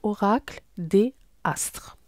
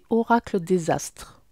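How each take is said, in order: First: No z sound links 'des' to 'astres'. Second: A z sound links 'des' to 'astres'. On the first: The speaker calls it right. "J'aime pas la faire la liaison" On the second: The speaker calls it wrong. "si je fais la liaison, ça fait oracle des astres. C'est pas cool"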